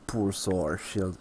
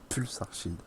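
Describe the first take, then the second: First: It is said with an American-style pronunciation. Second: It is said with a French-style pronunciation. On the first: "pour ceux qui le disent en américain" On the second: "c'est Pulsar Shield"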